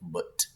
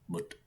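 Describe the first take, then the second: First: The final t is hard and strongly released. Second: The final t is light and soft. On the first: "It's not that English standard English t" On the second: "as light as I'm saying mut"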